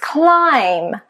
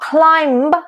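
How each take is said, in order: First: The B is silent in the word. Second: The B is sounded in the word. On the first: The speaker calls it right. "it's climb" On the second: The speaker calls it wrong. "It's not climb"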